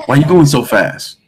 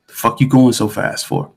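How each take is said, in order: First: Higher, milder questioning officer; imitated cop's question. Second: Blunt, sweary traffic cop; mock rude cop. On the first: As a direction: ask it as the less rude cop. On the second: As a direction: exaggerate the officer's rudeness a little. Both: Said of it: "he didn't say it like that".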